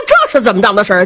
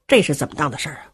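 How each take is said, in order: First: Quick, louder puzzled question; a baffled warrior asks himself, fast and puzzled. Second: The warrior mutters the same question to himself, low and soft; puzzled murmur. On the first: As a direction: blurt the question out fast in confusion. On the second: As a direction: lower and much softer, musing. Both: Acted. Baffled warrior thinking aloud.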